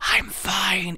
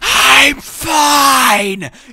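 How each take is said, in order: First: It is said in a quiet whisper. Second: It is said in a loud, shouted whisper.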